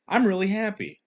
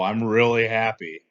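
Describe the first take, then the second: First: It is said in a sincere tone. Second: It is said in a sarcastic tone. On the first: The speaker is truly happy. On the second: The speaker is not really happy.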